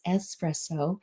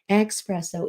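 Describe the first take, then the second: First: The word begins with an 'ess' sound. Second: The word begins with an 'ex' sound. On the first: The speaker calls it right. "it's espresso" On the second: The speaker calls it wrong. "no, it's not espresso"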